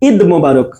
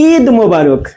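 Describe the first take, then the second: First: The i vowel in the first word is short. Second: The i vowel in the first word is long.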